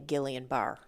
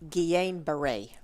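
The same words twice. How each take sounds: First: The name is said with Australian-style pronunciation. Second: The name is said with French-style pronunciation. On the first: "Australians usually say" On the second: "is proper"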